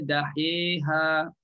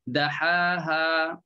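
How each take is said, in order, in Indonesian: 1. Vokal tengahnya condong ke bunyi 'i'. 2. Vokal tengahnya adalah bunyi 'a' terbuka. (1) "tak dibaca dahiha" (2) "tak dibaca dahiha"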